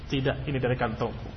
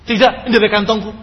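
First: It is said in a calm, neutral tone. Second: It is said in an angry tone. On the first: The speaker admits it came from himself. "Bisa saja dibaca dengan irama" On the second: The speaker indignantly denies making it up. "dengan irama marah kepadanya"

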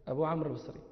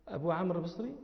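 No difference in how they are said.

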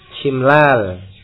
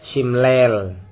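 First: The long vowel sounds like a plain 'a'. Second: The long vowel is tilted toward 'e'.

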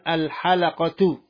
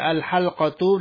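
First: An extra a vowel is heard between l and q. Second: No vowel is heard between the l and q. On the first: "bisa pula dibaca dengan al-halaqatu" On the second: "bisa dibaca al-halqatu"

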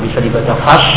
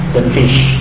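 First: The vowel is an open a sound. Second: The vowel is a front i sound.

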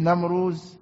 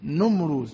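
First: The first vowel is not an 'u' sound. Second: The first vowel is an 'u' sound. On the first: The speaker calls it wrong. "مش" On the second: The speaker calls it right. "بالضم النون"

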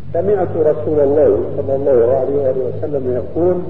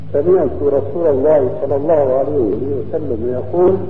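No difference in how they are said.

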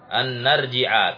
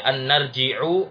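First: The word ends with a short a vowel. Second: The word ends with a short u vowel. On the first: The speaker calls it right. "dibaca an-narji'a" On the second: The speaker calls it wrong. "Tidak boleh dibaca"

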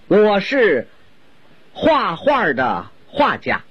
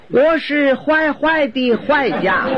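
First: The repeated syllable is pronounced hua. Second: The repeated syllable is pronounced huai. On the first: It says the speaker is a painter. The speaker calls it right. "我先用普通话给您介绍一下她的身世。" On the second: It sounds like the speaker is a bad person. The speaker calls it wrong. "就因为一个画字他发音走了形"

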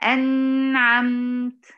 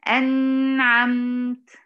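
First: The n sound is held too long. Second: The same.

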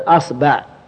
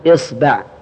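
First: The word begins with the vowel a. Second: The word begins with the vowel i.

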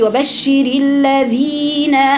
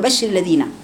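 First: The long vowel is held for two counts. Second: The long vowel is cut short. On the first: The speaker calls it right. "المفروض وانت بتقرأي وبشر الذين آمنوا، مد طبيعي في الذين" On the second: The speaker calls it wrong. "أنت بتقرأ كده تقول وبشر الذين، ما بتديش لم تعطي المد زمنه"

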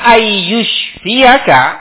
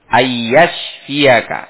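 First: The vowel after the first y is 'u'. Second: The vowel after the first y is 'a'. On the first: It wishes that the listener be destroyed. The speaker calls it wrong. "bi dhammi awwalihi" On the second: It wishes that the listener be healed. The speaker calls it right. "Ya-nya itu difathah"

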